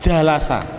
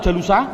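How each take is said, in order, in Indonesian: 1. Vokal setelah l adalah a. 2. Vokal setelah l adalah u. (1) "duduk bahasa Arabnya adalah jalasa" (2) "Jawabnya adalah tidak boleh"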